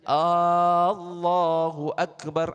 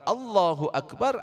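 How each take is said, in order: First: The opening vowel is drawn out long. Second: The opening vowel is kept short. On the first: It becomes a question about whether God is great. The speaker calls it wrong. "Tidak memanjangkan huruf hamzahnya. ... artinya sudah beda" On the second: It states that God is great. The speaker calls it right. "artinya Allah Maha Besar"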